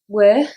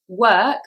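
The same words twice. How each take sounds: First: The word ends with breathy, h-like air. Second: The word ends with a hard k sound.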